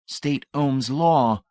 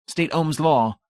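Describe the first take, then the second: First: Very slow, deliberate "State Ohm's law"; slow repeat. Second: High, crisp demand; zealot's question. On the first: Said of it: "Brady repeated". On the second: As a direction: put the question proudly. First question. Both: Acted.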